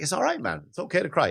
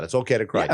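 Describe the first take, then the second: First: Put-on higher, gentle reassurance to a boy; reassuring son. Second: Said in the usual way. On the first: Telling his crying son it's fine, a reassuring voice. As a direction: comfort him, "It's okay to cry" lifted and kind. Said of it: "I tell my son all the time". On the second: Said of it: "And I tell him that".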